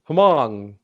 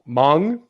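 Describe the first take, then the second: First: It begins with an audible H sound. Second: It begins directly with the M sound. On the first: The speaker calls it wrong. "No, try again" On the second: The speaker calls it right. "like silent H"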